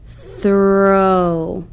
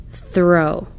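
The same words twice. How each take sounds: First: Drawn-out Throw; sounded out slowly. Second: Quick plain Throw; read quickly. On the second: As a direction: Throw said quickly as one whole word. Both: Shown as a demonstration. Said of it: "The O W word should be read like this".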